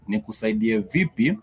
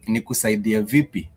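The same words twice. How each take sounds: First: Rising question. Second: Falling question. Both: Shown as a demonstration. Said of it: "is just a way of asking".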